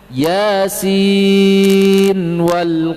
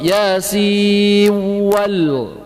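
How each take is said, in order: First: The final n is sounded clearly before w. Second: The final n is merged into the w. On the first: The speaker calls it right. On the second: The speaker calls it wrong. "Idgham yasin wal, enggak"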